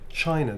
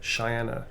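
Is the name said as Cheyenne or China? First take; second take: China; Cheyenne. First: The name sounds like CHY-na, stress at start. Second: The name sounds like shy-ANN, stress at end. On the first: The speaker calls it right. "It's China" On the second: The speaker calls it wrong. "I'm mispronouncing it"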